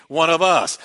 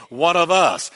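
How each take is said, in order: Both takes have the same delivery.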